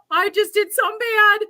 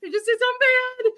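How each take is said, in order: First: High, loud, frightened admission; panicked confession. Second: Much higher and very fast, rushed repeat; frantic panic. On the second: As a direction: gabble it out in full-blown panic. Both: Retold or imitated. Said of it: "I'm freaking out".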